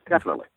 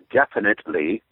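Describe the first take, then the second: First: Every syllable is said clearly and naturally. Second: Every syllable is exaggerated and overly crisp. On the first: The speaker calls it right. "You go definitely" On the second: The speaker calls it wrong. "Overpronounce it"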